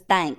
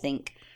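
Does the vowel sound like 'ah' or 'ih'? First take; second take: ah; ih. First: The vowel sounds like the one in 'thank'. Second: The vowel sounds like the one in 'sit'. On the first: This imitates how another person says the word. The speaker calls it wrong. "Donna says thank instead of think" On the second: This is the usual way to say the word. The speaker calls it right. "instead of think"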